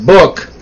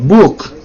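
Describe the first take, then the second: First: The vowel sounds close to the one in buck. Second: The vowel is the usual oo of book. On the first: This is how people from the speaker's home region say it. "where I come from... it would come out book... And it sounds like buck" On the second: This is the intended, usual pronunciation. "not book"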